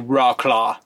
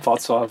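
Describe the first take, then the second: First: The name is said with an American pronunciation. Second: The name is said with a Polish-like pronunciation. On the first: "if you were American and you saw the city, you'd say Wrocław" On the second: "I think it's like Wrocław or something like that"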